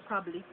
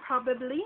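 First: "probably" said the Jamaican way; Jamaican pronunciation. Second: Said in the usual way. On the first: Shown as a demonstration. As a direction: Jamaican "probably", open first vowel. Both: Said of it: "we would say probably".

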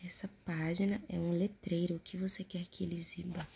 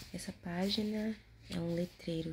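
First: Whispering. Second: Said in the usual way. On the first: Acted. Whispered reading of prompt.

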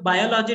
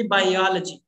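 First: "biology" as BY-o-lo-jee, first syllable stressed; full o's in "biology", weight on BY; common mispronunciation. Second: "biology" stressed on the second syllable, by-OL-uh-jee; correct pronunciation. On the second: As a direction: hit OL in "biology". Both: Shown as a demonstration. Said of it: "it should be biology".

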